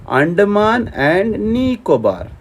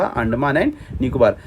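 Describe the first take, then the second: First: Slow, drawn-out "Andaman and Nicobar", pitched a little up; slow emphatic repeat. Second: Said in the usual way. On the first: Shown as a demonstration. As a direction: stretch out each name for the class. Repeats the name slowly for students. (धीरे-धीरे, खींचकर ज़ोर देते हुए)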